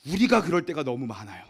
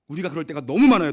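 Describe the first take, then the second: First: Said in the usual way. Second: 너무 hit louder with a falling tune; stress on 너무. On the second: Shown as a demonstration. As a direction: push 너무 hard and let it drop. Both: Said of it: "repeated with emphasis".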